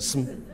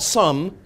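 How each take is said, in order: First: 'Some' is said with nearly no vowel. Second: 'Some' is said with a full vowel. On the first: The speaker calls it right. "but sm, nearly no vowel" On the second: The speaker calls it wrong. "Not some"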